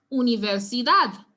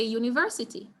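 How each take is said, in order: First: "universidad" with the final DAD punched; stress on DAD. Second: "university" stressed on VER; English stress. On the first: Teacher applying the Spanish rule, "universidad" stressed on DAD. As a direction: hit the last syllable, u-ni-ver-si-DAD. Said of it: "emphasis will be placed on the dad". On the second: Teacher showing English pronunciation for contrast, stress on VER in "university". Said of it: "we say university". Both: Shown as a demonstration.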